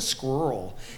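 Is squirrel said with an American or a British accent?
American. It is said with an American accent. The speaker calls it wrong. "Why do Americans say"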